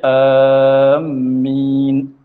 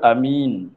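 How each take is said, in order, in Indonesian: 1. Vokal pertama panjang dan m ganda. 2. Vokal pertama pendek dan m tunggal. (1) "panjangkan hamzah serta tasydid akan mim" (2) "Kalau a pendek"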